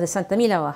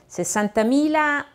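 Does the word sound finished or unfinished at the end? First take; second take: finished; unfinished. First: The pitch falls at the end, sounding final. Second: The pitch stays up at the end, sounding incomplete. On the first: The number is complete. The speaker calls it wrong. "因为你说 sessantamila，好像你就讲完了" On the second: More of the number follows. The speaker calls it right. "还没讲完"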